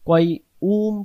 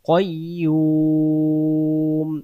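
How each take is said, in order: First: The word is broken into two separate parts. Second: The word is said smoothly joined as one. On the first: The speaker calls it wrong. "কয় উম পড়ব না" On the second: The speaker calls it right. "এখানে উচ্চারণ করব কয়ুম"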